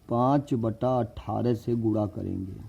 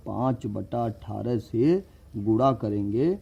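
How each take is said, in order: First: Said in the usual way. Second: Slower, each word laid out; slow repeat for emphasis. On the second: Shown as a demonstration. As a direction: say it again slowly so it sticks. (धीरे-धीरे दोहराते हुए)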